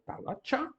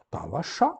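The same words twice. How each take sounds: First: "talacha" with TCH in the last syllable; "talacha" ending in affricate tcha, pitched higher; affricate variant. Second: "talacha" with hushing sh, no t; fricative variant. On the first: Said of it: "ao som africano, tch". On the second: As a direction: say "talacha" as ta-la-sha. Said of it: "ou talacha". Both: Shown as a demonstration.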